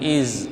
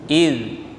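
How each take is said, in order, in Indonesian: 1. Konsonannya bunyi z yang bergetar. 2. Konsonannya bunyi th lembut yang bersuara. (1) "jangan iz, bukan iz" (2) "tapi id"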